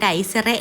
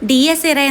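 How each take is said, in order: First: The name begins with a 'die' sound. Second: The name begins with a 'dee-ah' sound. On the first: The speaker calls it wrong. "ഞാൻ ഡൈസെറെ എന്ന് പറഞ്ഞുകൊണ്ടിരുന്ന" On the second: The speaker calls it right. "എന്നാണ് പ്രൊനൗൺസ് ചെയ്യേണ്ടതെങ്കിലും"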